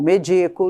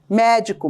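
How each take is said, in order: First: The stress is on the second syllable. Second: The stress is on the first syllable. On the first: It means giving someone medicine. "nem sempre serão" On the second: It names a doctor. "normalmente são empregadas como proparoxítonas"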